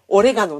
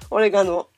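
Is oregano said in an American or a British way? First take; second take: American; British. First: It is said with an American accent. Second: It is said with a British accent. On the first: "米語ではオレガノなんだよね" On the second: "英語では違うの"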